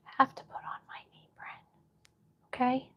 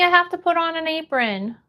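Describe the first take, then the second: First: Whispered aside, very soft and quick. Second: Said in the usual way. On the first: Real, not acted. Streamer repeating the task to herself, whispered. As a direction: whisper it quickly under your breath.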